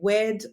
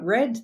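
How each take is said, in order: First: The word begins with a W sound. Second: The word begins with an R sound. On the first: The speaker calls it wrong. "they might say" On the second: The speaker calls it right. "instead of saying uh"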